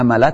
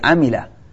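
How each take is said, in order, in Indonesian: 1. Vokal tengah itu bunyi 'a'. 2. Vokal tengah itu bunyi 'i'. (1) "Bukan ya" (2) "tapi amila"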